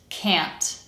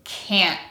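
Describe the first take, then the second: First: CAN'T with nasal vowel and released t; dictionary pronunciation. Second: CAN'T with nasal vowel, no released t; glottal stop t. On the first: Teacher sums up four sounds, full dictionary can't. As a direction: finish CAN'T on an audible t. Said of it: "that's our dictionary pronunciation". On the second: Teacher says listen to me, casual glottal can't. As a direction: end CAN'T on a throat catch. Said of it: "the letter T will be pronounced as a glottal stop". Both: Shown as a demonstration.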